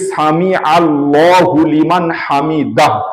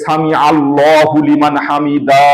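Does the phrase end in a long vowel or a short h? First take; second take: short h; long vowel. First: The phrase ends with a short h sound. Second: The final vowel is drawn out long. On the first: The speaker calls it right. "শেষে হা আছে, ছোট হা" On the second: The speaker calls it wrong. "টান দিয়ে পড়ে। এটাও কিন্তু মোটেই ঠিক নয়"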